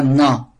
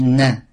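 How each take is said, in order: First: Na said like the French N, with the tongue placed as in French; wrong French na. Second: Na with the Arabic nun, a light clean N; correct Arabic na. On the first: Teacher showing students the wrong French-style na. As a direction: show na the way French speakers wrongly say it. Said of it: "on dit pas na". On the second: Teacher modelling the correct Arabic na for students. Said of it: "On dit na". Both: Shown as a demonstration.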